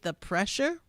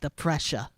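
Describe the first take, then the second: First: It is said in the speaker's usual accent. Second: It is said in a New York accent.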